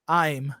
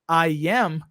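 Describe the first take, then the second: First: It is contracted into a single syllable. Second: It is said in full as two syllables. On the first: "que é uma contração" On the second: "Ao invés de falar"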